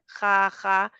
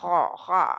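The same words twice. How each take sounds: First: The kh sound is made forward at the palate. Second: The kh sound is made deep in the throat. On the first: The speaker calls it wrong. "खा खा उधर से कर रहे हैं ना, खा खा, तो वो गलत है" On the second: The speaker calls it right. "आपके हलक से आखिरी हिस्से पे ... थोड़ा सा दबाएं तो ऐसे फील होता है"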